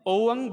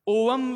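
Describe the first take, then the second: First: The word ends nasally with the lips open. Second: The word ends with the lips closed. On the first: The speaker calls it right. "ਸਾਡਾ ਜਿਹੜੇ ਬੁੱਲ ਨੇ ਉਹ ਬੰਦ ਨਹੀਂ ਹੋਣੇ ਚਾਹੀਦੇ" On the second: The speaker calls it wrong. "ਓਵਮ ਵੀ ਨਹੀਂ ਪੜ੍ਹਨਾ"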